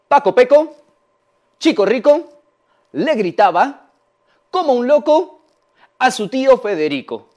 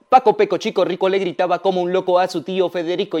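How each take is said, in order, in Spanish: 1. Se pronuncia lentamente, paso a paso. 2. Se pronuncia a un ritmo más rápido. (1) "Vamos paso a paso con este trabalenguas" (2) "Lo voy a decir ahora más rápido"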